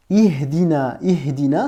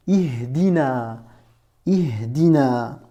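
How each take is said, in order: First: Said in the usual way. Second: Ihdina, Ihdina drawn out slowly syllable by syllable; slow syllable demo. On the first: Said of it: "C'est ce que je t'ai mis ici en transcription". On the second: Shown as a demonstration. Teacher models Ihdina slowly for a beginner, drawn out. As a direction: spell out Ihdina slowly for the learner. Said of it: "tu dis".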